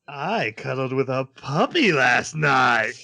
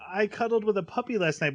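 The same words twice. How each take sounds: First: It is said in a sinister, evil tone. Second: It is said in a plain, innocent tone.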